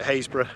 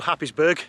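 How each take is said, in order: First: The name is said short, like Haysborough. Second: The name is said as spelled, Happis-burgh. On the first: It is how local people say the name. "locals call it Haysborough" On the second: It is how outsiders read the name. "to the rest of the world looks like it's called Happisburgh"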